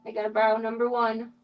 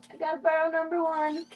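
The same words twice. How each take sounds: First: Said in the usual way. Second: Higher, sing-song pet voice; pet talk. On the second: Real, not acted. Streamer asking the mom to lend number one, pet talk. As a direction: coo the request up high.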